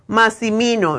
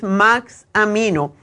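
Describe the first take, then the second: First: The second vowel is an 'i' sound. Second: The second vowel is an 'a' sound. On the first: The speaker calls it wrong. "no es Maximino" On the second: The speaker calls it right. "es Maxamino"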